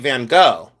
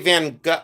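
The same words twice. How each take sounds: First: The name ends with a 'go' sound. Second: The name does not end with a 'go' sound. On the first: This is how the speaker says it. "I say Van Gogh, like a van that goes" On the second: Other people say it this way. "But they say Van Gogh"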